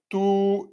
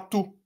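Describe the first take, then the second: First: The vowel is held for two beats. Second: The vowel is cut short to one beat. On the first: The speaker calls it right. "on va mettre deux temps" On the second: The speaker calls it wrong. "non pas tout"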